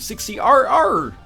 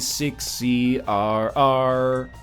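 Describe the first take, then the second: First: It is said in a barking seal-like voice. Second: It is said in a smooth crooning singer's voice. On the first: "It's my impression of a, a seal dictating a Binding of Isaac seed" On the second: "here's my impression of [name] dictating a Binding of Isaac seed"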